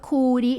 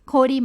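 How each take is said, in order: First: The first vowel sounds like 'oo'. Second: The first vowel sounds like 'oh'. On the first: The speaker calls it wrong. "เราไม่อ่านว่าคูดินะคะ" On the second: The speaker calls it right. "เราอ่านว่าโคดิ"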